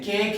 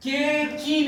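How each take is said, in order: First: "केक" as one syllable ending on k; silent final E. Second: "के की" with the final e voiced as a long ee; wrong two-syllable reading. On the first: Teacher showing the E is silent, "केक" as one syllable. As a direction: say "केक" with no vowel after the last k. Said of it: "आवाज नहीं". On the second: Teacher showing the silent E wrongly voiced, "के की" in two syllables. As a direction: sound out "के की" as two syllables, kay-kee. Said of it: "नहीं है, केक है". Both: Shown as a demonstration.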